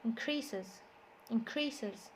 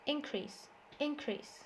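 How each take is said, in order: First: "Increases" stressed as in-CREA-ses; stress on second syllable. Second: "Increase" stressed as IN-crease; stress on first syllable. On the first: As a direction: put the weight on CREA in "Increases". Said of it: "the stress is on the second syllable". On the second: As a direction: hit IN in "Increase" and let crease fall. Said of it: "the stress is on the first syllable". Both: Shown as a demonstration.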